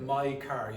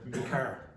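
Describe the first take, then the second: First: The first word rhymes with 'eye'. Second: The first word rhymes with 'see'. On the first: "Instead of my car" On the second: "you might hear me car"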